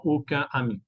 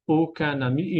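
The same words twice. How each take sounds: First: Aucun ami with nasal vowel, no n; aucun, then ami, unlinked; missing liaison. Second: Aucun ami linked with an n; liaison in N. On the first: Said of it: "y no aucun ami". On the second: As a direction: say "aucun ami" as aucu-nami. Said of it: "la N se queda". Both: Shown as a demonstration.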